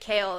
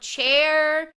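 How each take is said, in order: First: The name starts with a hard K sound. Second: The name is said as one short syllable. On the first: This is how it was said in an online video. "there was a way of someone pronouncing it and it was like Kale" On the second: This is another way the speaker used to read it. "I would call him Chair"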